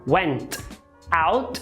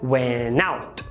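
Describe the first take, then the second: First: The two words are said separately, with a break. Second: The N runs straight into the next word.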